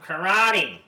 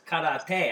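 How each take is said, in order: First: It has the anglicized American pronunciation. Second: It has the original Japanese pronunciation. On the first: The speaker calls it wrong. "as Americans have bastardized the pronunciation" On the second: The speaker calls it right. "It's karate"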